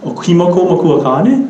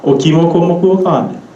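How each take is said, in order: First: "kane" shoots up at the end; English question intonation. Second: Up on "makua", down on "kane"; Pidgin-style question intonation. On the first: Teacher showing the off version, rising sharply on "kane". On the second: Teacher modelling Hawaiian question, dropping on "kane". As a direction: let "kane" fall away. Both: Shown as a demonstration. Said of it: "sound off, yeah".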